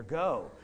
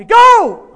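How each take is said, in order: First: Said in the usual way. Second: Sudden high, full-force shout; screamed command. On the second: Retold or imitated. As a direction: scream the order at her. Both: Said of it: "then I scream at her".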